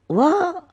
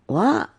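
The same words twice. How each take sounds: First: "What?" jumps up high in disbelief; a stunned, squeaky "What?"; shocked "What?". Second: Said in the usual way. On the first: Retold or imitated. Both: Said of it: "And I'm like".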